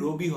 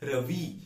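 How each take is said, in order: First: The name is said with Bengali pronunciation. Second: The name is said with English pronunciation. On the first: "বাংলায় যখন আমরা উচ্চারণ করি রবি হয়" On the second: "but ইংরেজিতে রবি"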